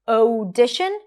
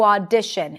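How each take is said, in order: First: The first vowel is two separate sounds. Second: The first vowel is a single open ah. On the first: The speaker calls it wrong. "it's not audition" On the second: The speaker calls it right. "it's only one sound, ah"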